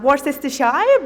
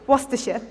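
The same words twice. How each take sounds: First: Every written syllable of the name is pronounced. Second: The name is shortened, with syllables dropped. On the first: This is how a reader guesses it from the spelling. The speaker calls it wrong. "my first instinct when I see this" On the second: This is how locals actually say it. The speaker calls it right. "actually the correct pronunciation"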